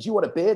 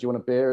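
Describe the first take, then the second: First: It is said in a pushy, salesy, over-the-top tone. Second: It is said in a relaxed, casual, friendly tone. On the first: It sounds like an advertisement pitch. The speaker calls it wrong. "I wouldn't be like" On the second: It sounds like ordinary talk between friends. The speaker calls it right. "I'd just be like"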